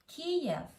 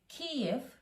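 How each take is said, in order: First: The name is pronounced the Russian way. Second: The name is pronounced the Ukrainian way.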